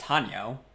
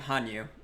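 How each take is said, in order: First: The name ends with a 'yo' sound. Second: The name ends with a 'yu' sound. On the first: This is how the name is properly pronounced. The speaker calls it right. "I know it's pronounced Hanyo" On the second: This is the habitual way the speaker says the name. The speaker calls it wrong. "look at how I say my name"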